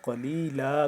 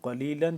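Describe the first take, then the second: First: The word ends with a long a sound. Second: The word ends with a final n sound. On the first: The reader stops on this word. "जब वक्फ करेंगे तो क्या हो जाएगा" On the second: The reading continues without stopping here. "लाम दो ज़बर लन"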